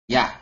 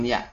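First: The word ends openly without a glottal stop. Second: The word ends with a glottal stop. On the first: The speaker calls it right. "Ya, bukan ya" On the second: The speaker calls it wrong. "Bukan pakai hamzah terakhirnya"

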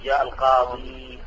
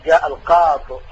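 First: The last word ends in a long ee sound. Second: The last word ends clipped, without the ee. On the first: "فالأفصح الوقف عليه بإثبات الياء" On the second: "ويجوز حذف الياء"

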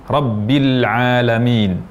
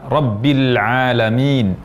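The two takes are said the same way.

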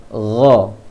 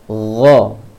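First: It starts with a throaty, airy gh sound. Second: It starts with a throaty, airy gh sound.

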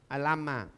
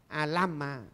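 No difference in how they are said.

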